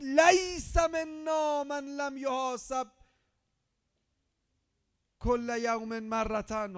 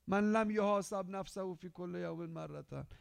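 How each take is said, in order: First: Slow, high, loud Arabic recitation; shouted hadith recital. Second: Said in the usual way. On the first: Shown as a demonstration. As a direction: proclaim "لیس" as a cry. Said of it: "فرمود". (حدیث را بلند و کشیده فریاد بزن) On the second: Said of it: "حالا مرتین هم داریم".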